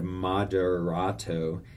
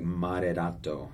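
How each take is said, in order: First: The R is said as an English R. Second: The R is said like a quick D. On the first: The speaker calls it wrong. "instead of moderato" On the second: The speaker calls it right. "think of it as a D that you put on the roof of your mouth"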